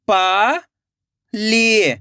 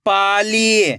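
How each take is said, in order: First: पाली split into पा, long pause, ली; rising पा, then falling ली; syllable by syllable. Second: Pali joined as one word with long ई; blended word. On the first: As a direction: sound out Pali very slowly in two parts. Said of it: "एक एक अक्षर का उच्चारण करना है". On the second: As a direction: read Pali whole, falling at the end. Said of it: "खींच के पढ़ना है". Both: Shown as a demonstration.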